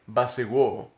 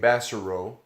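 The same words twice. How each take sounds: First: The name is pronounced the French way. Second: The name is pronounced the American way. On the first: "In French, we we, we say it Bassero" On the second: "American pronunciation, we say Bassero"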